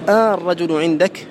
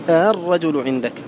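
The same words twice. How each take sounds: First: The hamza becomes a long drawn-out a vowel. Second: The hamza is softened, between hamza and a. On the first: "الإبدال أن تقول الرجل عندك" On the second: "والتسهيل الرجل عندك"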